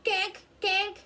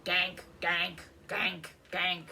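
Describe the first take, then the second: First: High, louder duckling quacks; baby duck quack. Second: Lower, gruffer duck quacks; big duck quack. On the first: Baby ducks at the pond, high loud quacks. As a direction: squeak it out like a tiny duck. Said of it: "They say". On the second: The big ducks hanging back, low quacks. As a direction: quack it deeper like a grown duck. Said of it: "The big ducks say". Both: A narrator's reading.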